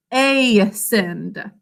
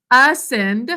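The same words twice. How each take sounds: First: Ascend with a long A, ay-send, slowly for spelling; spelling pronunciation. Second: Said in the usual way. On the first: Shown as a demonstration. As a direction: say ascend as ay-send, sounding the A's name. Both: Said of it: "we think to spell ascend".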